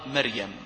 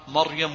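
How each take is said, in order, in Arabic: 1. صوت r مرقق ونحيف. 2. صوت r مفخم وممتلئ. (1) "يقرأ مريم، هذه خطأ" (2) "مريم مفخمة في كل القرآن الكريم"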